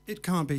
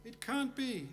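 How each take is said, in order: First: Said in the usual way. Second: High, soft mock wail of disbelief; mock audience disbelief. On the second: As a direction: whisper it like a crowd in mock despair. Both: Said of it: "I hear you say".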